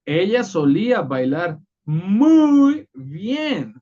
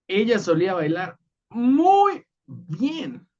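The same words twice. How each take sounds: First: Muy bien said high, slow and loud; emphatic muy. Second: Muy bien lifted higher, muy stressed; emphatic muy. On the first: Teacher shows Spanish emphasis to students, high and slow. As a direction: lean hard on muy, stretch it out. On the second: Teacher repeats the Spanish example, muy emphasized. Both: Shown as a demonstration. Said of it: "Es como cuando en español decimos".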